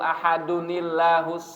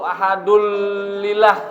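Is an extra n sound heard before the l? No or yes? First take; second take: yes; no. First: An added n sound links the word to the l. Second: The word joins straight to the l without n. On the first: The speaker calls it right. "harus ditambahi dengan nun ziyadah" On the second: The speaker calls it wrong. "Itu enggak disambung kayak qul ahadul lillah. Nah, salah"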